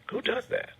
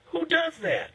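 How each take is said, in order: First: A soft unvoiced whisper of disbelief; whispered repeat. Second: Sudden high-pitched disbelief; incredulous outburst. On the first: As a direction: breathe it out quietly, stunned. Repeats question under his breath. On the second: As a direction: squeal it out in shock. Host's outraged rhetorical question. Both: Real, not acted.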